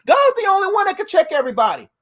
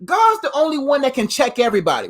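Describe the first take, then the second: First: Higher, preacher-style emphatic restatement; pumped-up church proclamation; fired-up repeat. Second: Said in the usual way. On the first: Shown as a demonstration. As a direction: say it again with fire. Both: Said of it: "repeated for emphasis".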